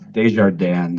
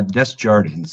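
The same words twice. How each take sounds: First: The name is said with a French pronunciation. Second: The name is said with an English pronunciation. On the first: "if you say it in French" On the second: "So just like it's spelled"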